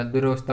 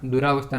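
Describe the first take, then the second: First: दुरावस्था said with a short duravastha; correct form. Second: दुरावस्था with a long aa after r; incorrect form. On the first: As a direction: shorten the vowel after r in दुरावस्था. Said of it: "बिल्कुल यह". (सही रूप दुरावस्था, छोटे 'र' के साथ) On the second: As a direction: open duraa in दुरावस्था. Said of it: "नहीं होता". (गलत रूप दुरावस्था, 'रा' के साथ) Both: Shown as a demonstration.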